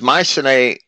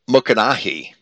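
First: The name is said with the usual English pronunciation. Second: The name is said with an ancient Greek pronunciation.

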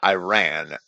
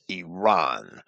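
First: The name has a traditional anglicized English pronunciation. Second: The name has a pronunciation imitating the native form. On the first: This is the traditional English dictionary form. "And I said Iran, ... the proper way of saying Iran in English" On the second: This follows how the country's own people say it. "not Iran ... pronunciations after the manner in which people of certain nations call their own nations"

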